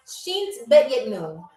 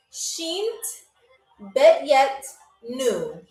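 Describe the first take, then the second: First: Said in the usual way. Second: Each word set apart by pauses; slow, spaced-out pronunciation demo. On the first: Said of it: "Very, very slow". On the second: Shown as a demonstration. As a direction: say it carefully, word by word. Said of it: "I have to say this very, very slow".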